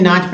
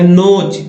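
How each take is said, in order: First: नाच said with a long "aah"; AA vowel. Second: नोच said with a long "oh"; O vowel. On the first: Teacher correcting learners' reading of notch, a long "aah". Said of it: "ओ को आ पढ़ा गया है". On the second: Teacher showing the reading to avoid, a long "oh". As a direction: say नोच to rhyme with coach. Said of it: "नहीं दोस्तों नोच नहीं". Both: Shown as a demonstration.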